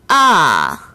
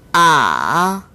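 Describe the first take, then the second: First: The pitch falls sharply from high to low. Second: The pitch dips low and then rises. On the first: "제사성" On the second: "제삼성"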